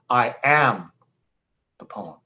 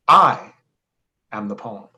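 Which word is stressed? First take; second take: am; I. First: The stress is on "am". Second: The stress is on "I".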